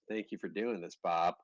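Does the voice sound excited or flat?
flat. It is said in a flat, monotone way. The writer seems neutral or unenthused. The speaker calls it wrong. "is what's going to come across as a period"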